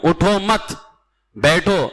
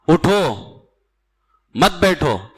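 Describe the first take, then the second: First: The pause comes after the second word, मत. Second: The pause comes after the first word, उठो.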